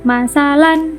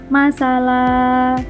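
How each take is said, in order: First: The word ends with an n sound. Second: The word ends with a long vowel. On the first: "huruf terakhirnya tanwin" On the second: "tanwinnya tidak dibaca. Huruf terakhirnya hanya menjadi panjang"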